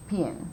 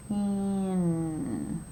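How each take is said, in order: First: Said in the usual way. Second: "Pin" stretched, long i sliding into held n; "Pin" blended slowly, vowel and n held; slow sounding-out. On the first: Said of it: "I said the whole word". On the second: Shown as a demonstration. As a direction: draw "Pin" out slowly through every sound. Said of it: "say the word again".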